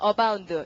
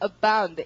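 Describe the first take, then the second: First: It is said flatly, with Korean-style sounds. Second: It is said with strong stress and a burst b. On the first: The speaker calls it wrong. "이걸 한국말로 읽으면 발음은 abound 이렇게 읽잖아요" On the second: The speaker calls it right. "바 여기 강하죠"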